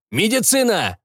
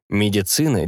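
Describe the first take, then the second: First: Calling out. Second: Said in the usual way. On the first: Acted. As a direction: call it out across the room. Shouted call.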